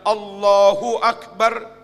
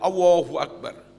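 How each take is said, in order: First: The L sound in Allahu is clear. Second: The L sound in Allahu is missing. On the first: The speaker calls it right. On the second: The speaker calls it wrong. "enggak bisa L"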